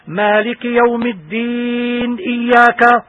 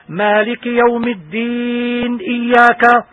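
First: The n is silent, then runs into the next word. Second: The n is silent, then runs into the next word.

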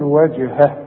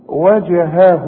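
First: The final vowel is cut off without lengthening. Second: The final vowel is held for two counts. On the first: The reciter stops on the word. "مفيش مد، هتقول وجهه" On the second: The word is joined to the next word. "يبقى انا بمد هنا حركتين"

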